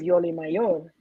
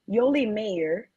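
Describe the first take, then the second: First: The surname is said with Spanish pronunciation. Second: The surname sounds like the English word mayor. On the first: The name is said as it really is. The speaker calls it right. "The way you say my name is" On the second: The name sounds Americanized. The speaker calls it wrong. "I was saying mayor like the mayor"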